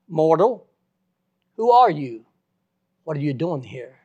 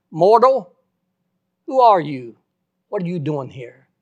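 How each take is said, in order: First: The same booming call a little less loud, loud on who are you; God's voice asking again. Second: Booming call of Mortal, loud and then fading; God's voice thundering down at the dead preacher, loud and awesome. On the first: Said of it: "I heard that voice again". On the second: The preacher retells the voice in heaven demanding who he is, booming. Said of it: "the most awesome voice I ever heard". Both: Retold or imitated.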